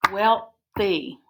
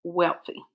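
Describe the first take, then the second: First: "Wealthy" split into wealth, pause, ee; syllable by syllable. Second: Said in the usual way. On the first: Shown as a demonstration. Teacher dividing the word for pupils, "Wealthy" in two syllables. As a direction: break "Wealthy" into two separate beats. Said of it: "First syllable". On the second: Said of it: "the word wealthy".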